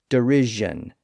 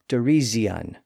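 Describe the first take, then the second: First: The middle consonant is a buzzing zh sound. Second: The middle consonant is a buzzing z sound. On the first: This is the later modern pronunciation. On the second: This is an intermediate stage of the change.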